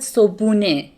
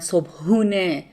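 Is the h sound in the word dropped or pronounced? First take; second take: dropped; pronounced. First: The h sound in the middle is dropped. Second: The h sound in the middle is pronounced. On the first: "I omit the he sound" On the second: "I didn't say"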